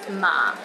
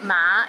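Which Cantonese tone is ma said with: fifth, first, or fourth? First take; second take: fourth; fifth. First: The syllable is said in the low fourth tone. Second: The syllable is said in the rising fifth tone. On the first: It means linen. "ma in the fourth tone means linen" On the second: It means horse. "ma in the fifth tone means horse"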